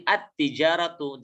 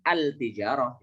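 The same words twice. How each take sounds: First: "at-tijaratu" with the l silent and a doubled t; assimilated lam. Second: "al-tijarah" with a clearly sounded l before the t; forbidden sounded lam. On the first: Teacher shows students the correct reading, "at-tijaratu" with doubled t. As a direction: go straight from the a into a held t in "at-tijaratu". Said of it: "huruf lamnya tidak dibaca". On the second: Teacher warns students off a wrong reading, "al-tijarah" with l sounded. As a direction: keep the l in "al-tijarah", no doubled t. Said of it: "tidak boleh al-tijarah". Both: Shown as a demonstration.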